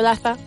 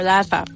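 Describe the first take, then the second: First: The first vowel is short. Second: The first vowel is drawn out long. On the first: "simplemente digo Laza" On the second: "que tiene dos as, y digo Laza"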